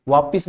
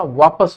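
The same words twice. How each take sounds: First: वापिस with i, vaa-pis; softer वापिस, i in the second syllable; wrong pronunciation. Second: वापस as vaa-pas, no i; correct pronunciation. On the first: Teacher dismissing the common mistake, mispronounced demo. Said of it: "वापिस नहीं होता". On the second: Teacher repeating the correct word, careful pronunciation. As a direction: lower वापस with short a in pas. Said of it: "वापस होता है". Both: Shown as a demonstration.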